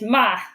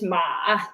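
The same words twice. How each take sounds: First: It is said with the fourth tone. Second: It is said with the third tone. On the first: "Fourth tone is ma" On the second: "Third tone is ma"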